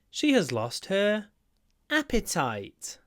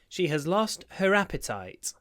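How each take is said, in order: First: Each word is said separately and clearly. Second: The words are run together with reduced sounds.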